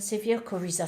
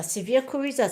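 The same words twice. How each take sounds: First: Said in the usual way. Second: "Severe coryza" higher and louder; emphatic repeat. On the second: Real, not acted. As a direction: punch "Severe coryza" as if it proves the point.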